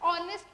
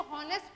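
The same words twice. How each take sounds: First: ऑनेस्ट starting on the O vowel; no H at the front of ऑनेस्ट; silent H. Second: हॉनेस्ट with the H voiced; wrong pronunciation. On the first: Teacher contrasting readings for students, ऑनेस्ट with silent H. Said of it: "ऑनेस्ट को हॉनेस्ट पढ़ेंगे". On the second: Teacher showing the mistake that spoils the article, हॉनेस्ट with H. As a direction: begin हॉनेस्ट on a spoken H. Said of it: "पढ़ेंगे तो जो हम". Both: Shown as a demonstration.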